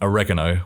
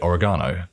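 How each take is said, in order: First: It is said with an American pronunciation. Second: It is said with a non-American pronunciation. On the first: This is how other Americans say it. "other Americans like myself, with different accents, would say" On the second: This is how the speaker's group says it. "We would say oregano"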